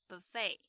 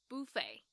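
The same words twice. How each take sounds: First: It is said with an American pronunciation. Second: It is said with a British pronunciation. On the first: "吃到饱自助餐的美式发音" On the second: "英式的话呢就会变成"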